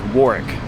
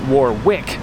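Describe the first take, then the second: First: The name is shortened, close to 'Wark'. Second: The name is said with every written sound. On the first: The speaker calls it right. "the town's true pronunciation is Warwick, or Wark" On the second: The speaker calls it wrong. "Originally we were pronouncing it"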